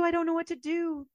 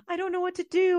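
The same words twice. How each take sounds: First: Tearful repeat. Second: High, louder, tearful wail; distraught, breaking down at her sister's door; crying. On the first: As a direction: still choking on the words, trailing down. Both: Retold or imitated. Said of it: "showed up at her door crying".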